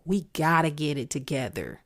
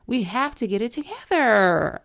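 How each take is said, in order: First: Said in the usual way. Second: Raised voice, higher and louder; exasperated yell to rally people; frustrated yelling. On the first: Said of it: "I'm screaming this out". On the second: Real, not acted. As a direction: cry out the plea in frustration. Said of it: "I feel like I'm screaming this out".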